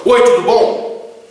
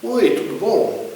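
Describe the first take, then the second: First: Loud, forceful hello with a rough edge; same polite words, unfriendly intonation; brusque greeting. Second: Easy, drawn-out hello in a higher pitch; pleasant, lilting small-talk greeting; friendly greeting. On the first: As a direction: greet them curtly at raised volume. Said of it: "É diferente". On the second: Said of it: "às vezes é a entonação". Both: Shown as a demonstration.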